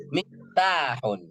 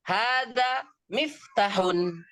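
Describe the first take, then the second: First: Miftahun slow, with a clear throaty ha; correct pronunciation. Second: Hadza miftahun said with the ha turned into a plain h; wrong pronunciation. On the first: Teacher demonstrates the correct reading of miftahun. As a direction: stretch Miftahun slowly and keep the ha from the throat. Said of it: "Tapi apa?". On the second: Teacher demonstrates the wrong reading of miftahun. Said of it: "Nggak boleh dibaca". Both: Shown as a demonstration.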